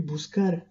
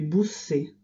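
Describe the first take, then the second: First: The consonant is a hard k sound. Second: The consonant is a soft s sound. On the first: The speaker calls it right. "Buscar ne se prononcera plus buscar" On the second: The speaker calls it wrong. "mais busser"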